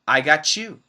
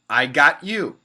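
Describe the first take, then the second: First: The T and y merge into a ch sound. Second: The T is cut off before the y sound. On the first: "many Americans combine the T and the Y to make a C H" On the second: "That's a stop T sound"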